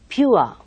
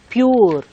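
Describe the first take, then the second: First: The vowel glides from 'oo' toward 'uh'. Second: The vowel lacks the gliding 'oo-uh' diphthong. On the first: The speaker calls it right. "you have uh, that kind of uh, ua sound over there. So you should say pure" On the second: The speaker calls it wrong. "they say pure, sure, poor, isn't it? ... it's uh, quite wrong"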